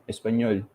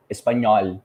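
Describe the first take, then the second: First: "Español" with a close, compact Spanish O; "Español" with its final vowel kept narrow. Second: "español" with a loud, open "aw" O; "español" ending in a broad open vowel; Brazilian open O. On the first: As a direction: say "Español" as in Spanish, O not opened. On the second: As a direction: punch "español" with a wide Brazilian O. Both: Shown as a demonstration. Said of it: "They don't have this O".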